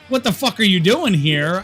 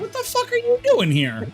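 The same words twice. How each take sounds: First: It sounds angry and hostile. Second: It sounds surprised and shocked.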